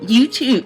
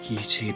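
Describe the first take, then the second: First: It is said smiling, happy and nervous. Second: It is said in a creepy, suggestive way. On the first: "Those noises were me smiling and being happy and nervous" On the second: "very creepily"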